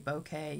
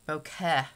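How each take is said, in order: First: It is said like the word bouquet. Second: It is said as bokeh, ending in eh. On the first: The speaker calls it wrong. "You don't say bouquet" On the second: The speaker calls it right. "you say bokeh"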